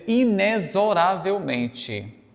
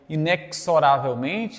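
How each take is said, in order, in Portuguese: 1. O x é pronunciado com som de z. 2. O x é pronunciado com som de ks. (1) "mas eles querem que seja a pronúncia" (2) "às vezes tem gente que fala aí"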